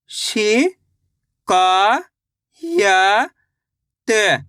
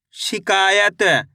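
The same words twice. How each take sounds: First: शिकायत drawn out slowly; syllable by syllable. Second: Said in the usual way. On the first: Shown as a demonstration. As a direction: stretch शिकायत part by part. (धीरे-धीरे खींचकर) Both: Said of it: "तो मिलके बन जाएगा".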